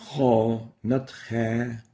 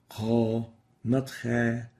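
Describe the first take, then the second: No difference in how they are said.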